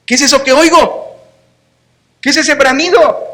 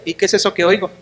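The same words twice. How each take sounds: First: Sarcastic challenge. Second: Softer, dry sarcastic question; a quiet jab at the king; dry sarcasm. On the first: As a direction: throw the question back in his face. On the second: Prophet Samuel quietly questioning Saul, dry sarcasm. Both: Retold or imitated. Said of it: "Notas el sarcasmo".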